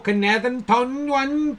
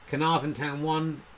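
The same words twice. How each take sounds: First: It is said in a Welsh accent. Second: It is said in his usual accent.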